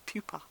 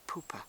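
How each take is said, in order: First: The first syllable sounds like 'pew'. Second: The first syllable sounds like 'poo'. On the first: The speaker calls it right. "It has to be pupae, pupa" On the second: The speaker calls it wrong. "I'm thinking poopa, poopa. I don't think I can say poopa"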